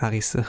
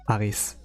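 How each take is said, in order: First: The name is said with a Japanese pronunciation. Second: The name is said with an English pronunciation. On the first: "I say like the Japanese uh, pronunciation" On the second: "Now it's natural for us to say like Arise"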